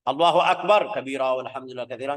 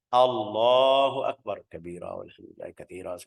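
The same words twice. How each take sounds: First: It is said very loudly. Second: It is said softly, just audible.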